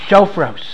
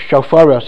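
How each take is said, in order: First: The word is said with two syllables. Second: The word is said with three syllables. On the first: The speaker calls it wrong. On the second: The speaker calls it right.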